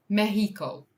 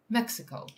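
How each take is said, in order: First: "Mexico" as MEH-hee-koh, louder; Spanish pronunciation. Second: "Mexico" as MEK-si-koh; English pronunciation. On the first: Corrects to Spanish form. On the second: Says both English and Spanish forms. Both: Real, not acted.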